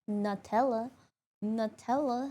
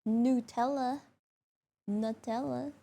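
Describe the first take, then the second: Both takes have the same delivery.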